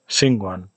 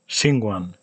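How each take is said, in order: No difference in how they are said.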